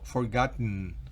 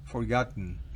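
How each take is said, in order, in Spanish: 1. La última sílaba tiene una vocal débil y reducida. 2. La última sílaba tiene una vocal débil y reducida.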